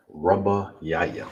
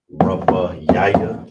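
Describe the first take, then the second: First: Slow model. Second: Rabba Yaya said slowly and loudly, rising at the end; slow, emphatic model. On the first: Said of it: "we have it right here". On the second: Teacher announces the word for fourth slowly and loudly. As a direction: give Rabba Yaya slowly with a strong lift. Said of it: "Here's the breakdown". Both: Shown as a demonstration.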